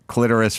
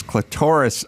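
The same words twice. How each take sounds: First: "clitoris" as "CLIT-er-is"; first-syllable stress. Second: "clitoris" as "cli-TOR-is"; second-syllable stress. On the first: Naming one side of the argument, "clitoris" as "CLIT-er-is". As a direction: stress the opening of "clitoris", short i. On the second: Naming the rival side, "clitoris" as "cli-TOR-is". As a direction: stress the middle of "clitoris", rhyming with Doris or chorus. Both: Shown as a demonstration. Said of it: "having this very heated clitoris versus clitoris argument".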